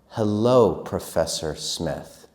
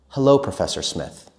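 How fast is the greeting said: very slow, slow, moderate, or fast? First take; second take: slow; fast. First: It is said a bit faster. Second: It is said at normal conversational speed. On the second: "and normal"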